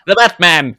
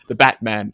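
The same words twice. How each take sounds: First: It is read in an old-timey radio announcer voice. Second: It is read in an ordinary speaking voice.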